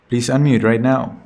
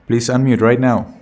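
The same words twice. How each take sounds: The two takes are said the same way.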